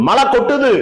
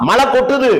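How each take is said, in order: The two takes are said the same way.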